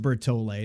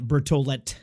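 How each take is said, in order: First: The final T sound is left silent. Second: The final T sound is clearly pronounced. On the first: The speaker calls it right. "A lot of times you don't say that last T" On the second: The speaker calls it wrong. "not Bertolet"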